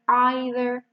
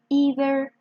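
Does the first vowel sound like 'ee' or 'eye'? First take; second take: eye; ee. First: The first vowel sounds like 'eye'. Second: The first vowel sounds like 'ee'. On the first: "or as an I" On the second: "you can pronounce it as E"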